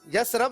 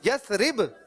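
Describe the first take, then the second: First: No i vowel comes before the final b. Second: An i vowel comes before the final b. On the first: The speaker calls it wrong. "जेर यसरब नहीं है" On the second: The speaker calls it right. "यसरिब क्या है?"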